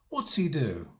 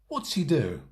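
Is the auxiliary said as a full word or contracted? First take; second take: contracted; contracted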